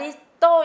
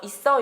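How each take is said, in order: First: The middle consonant sounds like d. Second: The middle consonant sounds like a tense s. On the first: The speaker calls it wrong. "이렇게 발음이 될 만한 근거가 있나요? 없죠" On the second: The speaker calls it right. "쌍시옷을 뒤로 옮겨서"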